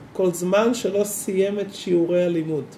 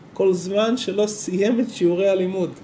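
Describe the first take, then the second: Both takes have the same delivery.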